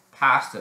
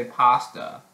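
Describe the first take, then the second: First: Pasta with a short front A as in cat; British pronunciation. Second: Pasta with an open ah, PAH-stuh; American pronunciation. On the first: Showing viewers that's British pasta, short front A. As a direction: say PASTA the British way, PASS-tuh. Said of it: "that's British". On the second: Showing how Americans say pasta, open ah. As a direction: say PASTA the American way, broad first vowel. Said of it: "Americans say pasta". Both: Shown as a demonstration.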